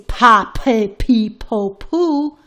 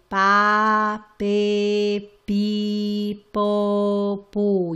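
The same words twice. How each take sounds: First: The p sounds release a strong puff of air. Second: The p sounds are soft, without a puff. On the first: The speaker calls it wrong. "You don't say pa, pe, pi, po, pu, because that is not Spanish" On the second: The speaker calls it right. "you're going to say it much, much um, softer"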